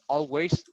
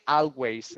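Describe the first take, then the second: First: The first syllable sounds like 'all'. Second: The first syllable sounds like 'ah'. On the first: The speaker calls it right. "it's all" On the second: The speaker calls it wrong. "Do not say always. It's not ah"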